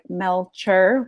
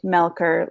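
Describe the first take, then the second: First: The middle consonant is a 'ch' sound. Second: The middle consonant is a 'k' sound. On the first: The speaker calls it wrong. "It's not sounds like Melcher, C H" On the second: The speaker calls it right. "but it's pronounced Melker, like a K"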